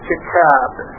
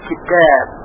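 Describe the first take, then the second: First: The t is released with a strong puff of air. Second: The t is softened with little air, near d. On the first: The speaker calls it wrong. "طوری که هوا با فشار ازش خارج بشه" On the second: The speaker calls it right. "یک مقدار حرف تا رو باید به دال نزدیکتر بکنیم"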